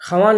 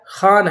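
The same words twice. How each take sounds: First: خوان said as written, khawaan, with the w sounded; spelling pronunciation. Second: خوان said as khaan, with no w; silent wao. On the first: Teacher showing how the word is written, spelling pronunciation. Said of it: "لکھا گیا". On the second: Teacher showing how the written word is read, silent wao. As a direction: drop the و from خوان, long aa after kh. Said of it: "لیکن یہ واو پڑھا نہیں گیا". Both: Shown as a demonstration.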